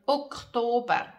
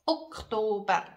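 The two takes are said the same way.

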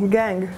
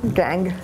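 First: The word sounds pleased and upbeat. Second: The word sounds let down and flat. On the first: The other person gave their phone number. "se tu mi dai il numero di telefono, è gang" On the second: The other person refused to give their number. "E se non me lo dai?"

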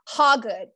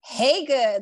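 First: The first syllable does not sound like 'hey'. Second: The first syllable sounds like 'hey'. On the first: The speaker calls it wrong. "They say Hagood. No" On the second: The speaker calls it right. "it's pronounced Hagood. Like, hey, she's good"

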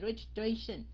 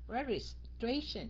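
First: The word is said in one smooth run. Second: The word is split into separate syllable chunks. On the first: "Đọc mà liên tục như vậy nó hơi khó" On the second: "Mà mình chia nó ra, cắt nó ra"

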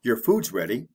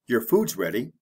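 First: The words are said quickly and run together. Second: The words are said quickly and run together.

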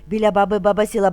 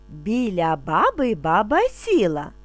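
First: It is spoken at a very fast pace. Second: It is spoken calmly at a slow pace. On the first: "дуже швидко" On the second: "вимовляти спокійно, не спіша"

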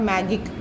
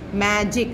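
First: The middle consonant is a hard g sound. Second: The middle consonant is a j sound. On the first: The speaker calls it wrong. "J ka g sound nahi" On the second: The speaker calls it right. "j sound aa jayega magic mein"

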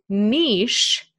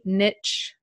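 First: It ends with a soft 'sh' sound, like 'neesh'. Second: It ends with a 'tch' sound, like 'nitch'. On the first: "and niche in British English" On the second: "it's pronounced niche with a T, niche. I'm kind of pronouncing the T in there, in American and Canadian English"

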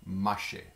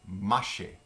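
No difference in how they are said.

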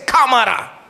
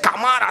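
First: The stress falls on the first syllable. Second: The stress falls on the last syllable. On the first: The speaker calls it right. "se dice cámara" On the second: The speaker calls it wrong. "no se dice cámara"

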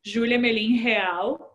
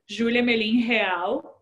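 First: The name is said with Portuguese pronunciation. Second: The name is said with Portuguese pronunciation.

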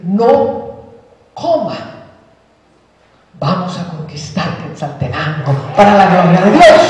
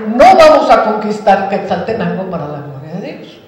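First: There is a break after the word no. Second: It runs on without a break after no.

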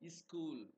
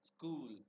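First: An extra i vowel comes before the s. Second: The word starts directly with the s sound.

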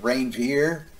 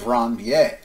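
First: It is pronounced to rhyme with reindeer. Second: It is pronounced the French way. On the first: The speaker calls it wrong. "we sort of bastardize the word into something that rhymes with reindeer" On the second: The speaker calls it right. "but formally node of Ranvier"

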